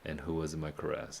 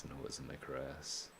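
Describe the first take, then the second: First: Said in the usual way. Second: "And who was in my caress?" whispered and hushed. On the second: Shown as a demonstration. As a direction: breathe "And who was in my caress?" as a soft echo. Echoes the line in a whisper.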